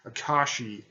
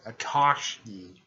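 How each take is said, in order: First: Said in the usual way. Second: "Akashi" slowed, with an extra k before the last vowel; stumbled name. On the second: Real, not acted. Narrator tripping on teacher's name, "Akashi" garbled as "a-KASH-kee". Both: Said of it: "I can't say it".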